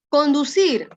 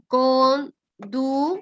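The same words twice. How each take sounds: First: Said in the usual way. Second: Conducir very slowly as con... du... cir; syllable by syllable. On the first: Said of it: "la letra E". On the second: Shown as a demonstration. Teacher counting syllables for the class, conducir split in three. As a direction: break conducir into three separate beats with pauses. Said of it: "solamente la palabra a conducir".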